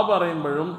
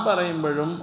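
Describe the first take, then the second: No difference in how they are said.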